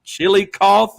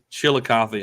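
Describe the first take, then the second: First: Chillicothe ending in "coth", without a final ee; guessed pronunciation. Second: Chillicothe as "chill-uh-KAH-thee"; corrected pronunciation. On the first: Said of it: "how do you pronounce". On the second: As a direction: repeat Chillicothe the local way, with a final ee. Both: Shown as a demonstration.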